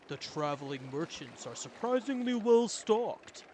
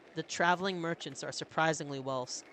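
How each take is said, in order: First: It is said in Ubin's character voice. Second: It is said in a voice other than Ubin's.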